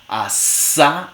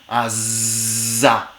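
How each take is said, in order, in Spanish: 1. La sibilante del medio es sorda. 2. La sibilante del medio es sonora.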